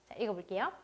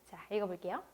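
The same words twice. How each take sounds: The two takes are said the same way.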